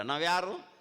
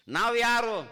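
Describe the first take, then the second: First: Said in the usual way. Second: The question thrown out high and loud to the crowd; booming preacher's question; loud rhetorical question. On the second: Shown as a demonstration. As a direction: call it out so the whole hall hears. Preacher repeats the question louder.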